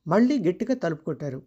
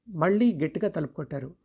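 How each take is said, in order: Both takes have the same delivery.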